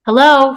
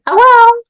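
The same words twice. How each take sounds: First: Loud, raised searching call. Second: Very high, loud toy mimic; nasal, desperate echo. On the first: Acted. Woman searching for the toy, calling out. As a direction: call out to find someone hidden. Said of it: "she called". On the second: Toy answers from the bushes, nasal desperate echo. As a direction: squeak it back like a talking toy. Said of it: "nasally, angry, desperate".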